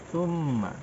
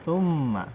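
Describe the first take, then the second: Both takes have the same delivery.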